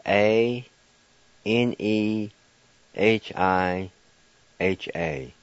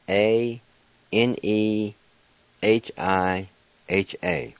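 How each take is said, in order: Both takes have the same delivery.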